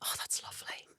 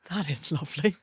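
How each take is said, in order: First: Whispered admiration. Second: Said in the usual way. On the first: Retold or imitated. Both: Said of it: "pulled it up and went".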